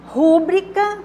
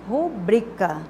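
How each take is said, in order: First: The stress is on the first syllable. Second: The stress is on the second syllable. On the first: The speaker calls it wrong. "rúbrica não é uma palavra proparoxítona" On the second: The speaker calls it right. "a sílaba tônica é a penúltima"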